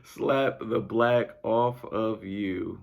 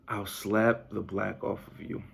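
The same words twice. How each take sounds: First: Slow, drawn-out line squeezed through laughter; slowly stretched words through a laugh. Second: Said in the usual way. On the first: Real, not acted. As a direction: savour it while still giggling. Repeating the quote laughing.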